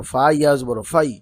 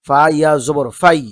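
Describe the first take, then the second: First: Said in the usual way. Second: ফা ইয়া জবর ফাই much louder, জবর hit firmly; corrected, stressed. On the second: Shown as a demonstration. Teacher fixing a misread syllable for students, stressing জবর. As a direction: correct the slip and hammer জবর. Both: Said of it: "এখানে জবর".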